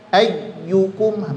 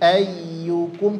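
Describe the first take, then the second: First: The doubled ya is pressed too strongly. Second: The doubled ya is pressed lightly. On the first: The speaker calls it wrong. "malah seperti terlalu kuat seperti syiddah" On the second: The speaker calls it right.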